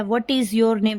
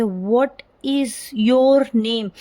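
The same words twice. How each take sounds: First: Said in the usual way. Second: Slow "What is your name?", each word drawn out; rise-fall intonation. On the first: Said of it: "अब जैसे ये है". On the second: Shown as a demonstration. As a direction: demonstrate rising and falling tune on "What is your name?". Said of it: "एक बार rise हो रहा है".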